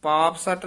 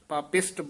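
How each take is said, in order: First: It is split into two parts, ending in satt. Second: It is said as one word, ending in isht. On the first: The speaker calls it wrong. "ਨਹੀਂ ਕਹਿ ਦੇਣਾ ... ਬਿਲਕੁਲ ਹੀ ਅਸ਼ੁੱਧ ਹੈ" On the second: The speaker calls it right. "ਪਾਪਿਸ਼ਟ ਬੋਲਣਾ ਹੈ"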